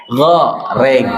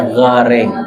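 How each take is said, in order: First: Goreng punched out; shouted goreng; marked goreng. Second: Goreng relaxed and open; easy goreng; correct goreng. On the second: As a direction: goreng said plainly with open mouth. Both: Shown as a demonstration. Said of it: "bukan goreng".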